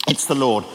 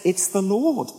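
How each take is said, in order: First: Said in the usual way. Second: A touch of hushed wonder; awed recognition. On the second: Retold or imitated. Disciple recognising Jesus.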